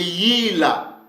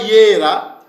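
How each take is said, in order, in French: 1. La consonne du milieu est un son l. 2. La consonne du milieu est un son r. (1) "mais c'est Yila" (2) "C'est pas Yera"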